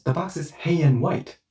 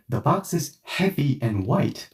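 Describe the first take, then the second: First: "hey and white", the v-y of heavy left out; heavy run together. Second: Said in the usual way. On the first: Shown as a demonstration. Friend repeating which box it is, heavy run together. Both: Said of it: "the V and Y disappears".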